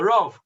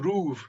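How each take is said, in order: First: The vowel sounds like oh. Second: The vowel sounds like oo. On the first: "we would call the Rav"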